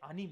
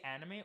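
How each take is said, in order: First: ANIME with a Japanese accent, open AH first vowel. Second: Said in the usual way. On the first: Shown as a demonstration. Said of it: "with a Japanese accent". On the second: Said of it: "say it with a Japanese accent".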